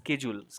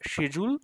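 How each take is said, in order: First: The word begins with an sk sound. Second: The word begins with an sh sound. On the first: "আমেরিকানরা বলে" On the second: "ব্রিটিশে এটাকে বলে"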